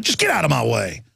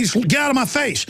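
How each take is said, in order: First: Lower, flat final get-lost; cold dismissal. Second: Sharp, raised get-lost line; firm brush-off. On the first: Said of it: "and I'm like". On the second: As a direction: tell him off hard, falling at the end. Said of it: "And I'll just be like". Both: Retold or imitated.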